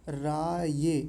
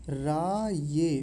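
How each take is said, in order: No difference in how they are said.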